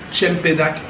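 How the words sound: It is pronounced the Malay way. "comme on dit en malaisien"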